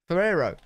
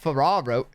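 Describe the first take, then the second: First: The middle vowel sounds like 'eh' or 'air'. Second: The middle vowel sounds like 'ah'. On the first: The speaker calls it right. "Ferrero. Not Ferraro" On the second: The speaker calls it wrong. "I think he's saying it wrong"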